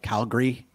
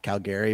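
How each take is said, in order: First: The middle vowel is dropped from the word. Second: The middle vowel is kept in the word. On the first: This is how locals say it. The speaker calls it right. "kind of drop an A in there, like Calgary" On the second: This is how outsiders say it. The speaker calls it wrong. "not Calgary"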